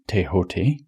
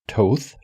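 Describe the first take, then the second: First: It is pronounced in a reported Egyptian way. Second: It is pronounced the way the spelling suggests. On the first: "the Egyptian pronunciation of this may be Tehote" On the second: "you would think is pronounced Thoth"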